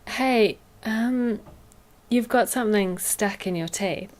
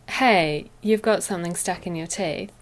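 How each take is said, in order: First: A hesitant 'um' follows the greeting. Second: The greeting runs straight on without hesitation. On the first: The speaker is being thoughtful about the friend's feelings. The speaker calls it right. "if you add the um, it sounds softer" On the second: The speaker may seem blunt or rude. The speaker calls it wrong. "it could sound rude"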